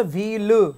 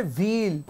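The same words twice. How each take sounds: First: व्हील with an extra vowel after L, vee-lu; wrong voiced ending. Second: व्हील with long EE, stopping cleanly on L; silent ending. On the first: Teacher showing what not to read, व्हील as vee-lu. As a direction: add a second syllable to व्हील. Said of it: "व्हील नहीं पढ़ेंगे". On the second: Teacher giving the right reading, व्हील as one long syllable. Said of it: "second silent रहता है". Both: Shown as a demonstration.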